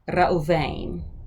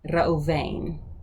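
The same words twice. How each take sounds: Both takes have the same delivery.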